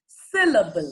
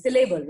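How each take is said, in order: First: syllable drawn out as SIL-uh-bul, SIL hit hard; stress on first part. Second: syllable as si-LAY-bul, LAY leaned on; stress on second part. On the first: Coach models first-part stress, loud SIL opening on syllable. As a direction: punch SIL, then fall through syllable. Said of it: "पहले part पे stress कर रहे हैं". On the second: Coach repeats the second-part example for student, si-LAY-bul for syllable. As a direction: stress the middle syllable of syllable. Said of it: "second part पे stress कर रहे हैं". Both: Shown as a demonstration.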